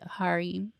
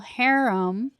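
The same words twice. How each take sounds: First: The word is said in a British pronunciation. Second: The word is said in a non-British pronunciation.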